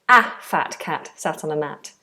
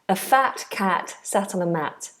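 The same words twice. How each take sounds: First: The first 'a' is a full strong vowel. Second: The first 'a' is a short weak vowel. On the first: The speaker calls it wrong. "It would sound odd if you said" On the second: The speaker calls it right. "So we make it weak and it becomes a"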